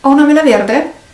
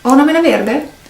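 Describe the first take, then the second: No difference in how they are said.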